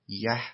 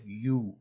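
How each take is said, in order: First: The word is reduced to an eh vowel. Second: The word has a drawn-out oo vowel. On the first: "یکی یه" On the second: "یکی یو کشیده"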